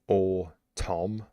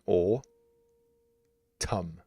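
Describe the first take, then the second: First: The second syllable sounds like 'tom'. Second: The second syllable sounds like 'tum'. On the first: The speaker calls it wrong. "not or Tom or atom" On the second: The speaker calls it right. "it's like O R T U M. That's the pronunciation"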